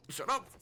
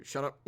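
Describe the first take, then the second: First: High, giggly shut up rising on up; laughing. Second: Said in the usual way. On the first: Real, not acted.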